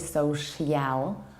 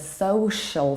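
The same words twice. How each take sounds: First: The ending is slow and fully pronounced. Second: The ending is quick and reduced. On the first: The speaker calls it wrong. "You don't say social" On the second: The speaker calls it right. "but social, so the ending is pretty quick and reduced"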